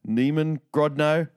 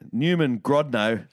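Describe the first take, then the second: First: The first word has a different vowel, unlike Newman. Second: The first word sounds like the English name Newman. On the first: The speaker calls it right. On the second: The speaker calls it wrong.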